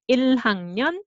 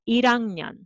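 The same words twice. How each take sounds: First: The h sound is clearly pronounced. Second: The h sound is weakened in casual speech.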